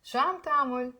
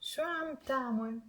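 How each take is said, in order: First: Quicker, connected teaching demo; faster. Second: Softly, slowly model the phrase; measured, careful repeat-after-me delivery; slow teaching demo. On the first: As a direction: run the phrase together faster. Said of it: "Now faster". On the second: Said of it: "I'm gonna say it slowly". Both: Shown as a demonstration.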